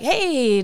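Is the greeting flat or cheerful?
cheerful. The greeting sounds warm and cheerful.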